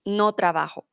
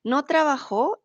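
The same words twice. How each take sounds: First: "trabajo" stressed on "ba", with an unstressed ending; stress on the middle syllable. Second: "trabajó" with the stress on the final "jó"; stress on the last syllable. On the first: Teacher shows students "no trabajo" without the tilde, stressed on "ba". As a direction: say "no trabajo" with the weight on "ba". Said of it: "without the tilde". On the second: Teacher shows students the past form "no trabajó", stressed at the end. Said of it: "sin la tilde en la O". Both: Shown as a demonstration.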